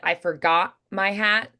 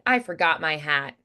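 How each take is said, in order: First: The T in forgot is a glottal stop. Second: The T in forgot is a soft tap. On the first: "sometimes they'll do a glottal stop instead" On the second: "instead of doing a softened T"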